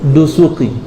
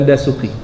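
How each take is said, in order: First: The first vowel is pronounced as "u". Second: The first vowel is pronounced as "a". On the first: The speaker calls it right. "Yang betul Dusuki" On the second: The speaker calls it wrong. "bukan Dasuki"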